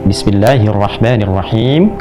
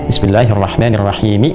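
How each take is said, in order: First: The phrase ends on a silent final consonant. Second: The phrase ends with a final vowel. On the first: The reader pauses at the end. "berhenti dengan sukun" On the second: The reading continues without stopping. "kan harakat akhirnya pakai"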